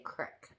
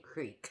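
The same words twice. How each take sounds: First: The vowel is short, sounding like crick. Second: The vowel is long, sounding like creek. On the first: This is how people from the speaker's home region say it. "We say" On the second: This is how people from the speaker's home region do not say it. "We don't say"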